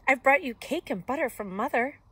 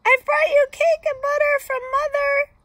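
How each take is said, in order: First: Put-on higher, louder girl's voice; lilting girlish announcement, without squeaking; lightly voiced Little Red. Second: Very high, loud squeaky voice; squeak. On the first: Little Red bringing cake to Granny, lifted girlish voice. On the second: Wolf posing as granddaughter bringing cake, loud high squeak. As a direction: keep squeaking like a fake little girl. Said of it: "I squeaked". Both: A narrator's reading.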